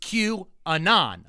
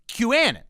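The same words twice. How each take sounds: First: The letter Q is said apart from anon. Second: It is run together, like canon. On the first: "If there's a hyphen" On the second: "it looks like the word canon. So I'm going to say"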